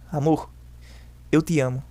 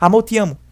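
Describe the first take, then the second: First: The phrase is said slowly and calmly. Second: The phrase is said quickly and hurriedly. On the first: The speaker calls it right. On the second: The speaker calls it wrong.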